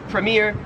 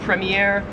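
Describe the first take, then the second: First: It is said in an American accent. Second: It is said in an Australian accent. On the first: "English we would say this word as premier" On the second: "Australian premiere"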